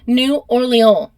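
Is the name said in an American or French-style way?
French-style. It is said in a French-style way.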